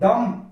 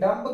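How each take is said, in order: First: The word ends on the m sound. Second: A b sound is heard after the m. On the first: The speaker calls it right. "बी यहां पर silent हो जाता है" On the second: The speaker calls it wrong. "डम्ब गलत होता है"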